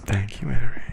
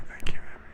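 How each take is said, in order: First: Louder, falling at the end; loud voiced thanks. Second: Whispered thanks; whispered thank you. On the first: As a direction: call out the thanks. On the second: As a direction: breathe the thanks out. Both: Shown as a demonstration.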